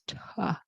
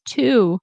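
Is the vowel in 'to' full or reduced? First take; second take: reduced; full. First: The word has a weak, reduced 'uh' vowel. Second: The word has a full 'oo' vowel. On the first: "generally in connected speech, we will pronounce to, like T O, as ta" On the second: "you can pronounce it as to"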